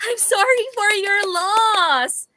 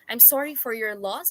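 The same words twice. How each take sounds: First: It is said in a cheerful, laughing tone. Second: It is said in a sad, sincere tone.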